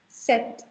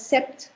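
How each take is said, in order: First: The P sound is silent in the word. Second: The P sound is pronounced in the word. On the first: The speaker calls it right. "I am not sounding the P in the center" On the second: The speaker calls it wrong. "You don't call it sept"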